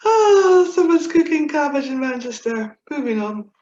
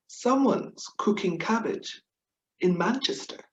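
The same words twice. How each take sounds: First: "Someone's cooking cabbage in Manchester" higher and louder, crying with laughter; laughing through it. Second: Said in the usual way. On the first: Real, not acted. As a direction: repeat the punchline while cracking up. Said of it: "convulsing into fits of laughter". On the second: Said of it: "it goes a bit like this".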